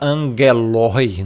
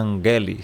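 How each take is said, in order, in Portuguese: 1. A terminação é falada letra por letra. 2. A terminação é falada como uma única vogal. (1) "você não vai falar angeloi" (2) "Então é angeli"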